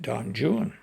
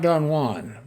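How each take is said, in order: First: Juan is said in an anglicized way. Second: Juan is said in the Spanish way. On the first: This is how the poet said it, shown by his rhymes. The speaker calls it right. "He pronounced it Don Juan" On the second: This is the usual modern reading of the name. The speaker calls it wrong. "not Don Juan"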